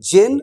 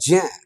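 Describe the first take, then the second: First: The vowel is plain, with a clear final n. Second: The vowel is nasal, with no clear final n. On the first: The speaker calls it wrong. "আসলে উচ্চারণটা জেন নয়" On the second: The speaker calls it right. "উচ্চারণটা হবে জ্যাঁ। কারণ উনাদের উচ্চারণের মধ্যে একটা চন্দ্রবিন্দু চলে আসে"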